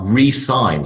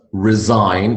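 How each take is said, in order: First: Resign as ree-SIGN, with an s; re as in again. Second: Resign with a buzzing z, ri-ZINE; z sound. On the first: Teacher demonstrating another verb, re-sign pronunciation. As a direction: say resign as two parts, re and sign. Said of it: "re as in again". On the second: Teacher demonstrating the first verb, z-sound resign. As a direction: say resign slowly with a z in the middle. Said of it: "with a z sound". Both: Shown as a demonstration.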